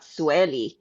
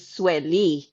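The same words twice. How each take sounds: First: "Sueli" with the weight up front, SWELL-ee; wrong pronunciation. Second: "Sueli" with the weight on the end, sweh-LEE; correct pronunciation. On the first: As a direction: say "Sueli" as SWELL-ee, stressing the start. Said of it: "not Sueli". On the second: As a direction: say "Sueli" as two parts, landing on LEE. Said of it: "your name is Sueli, not Sueli". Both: Retold or imitated.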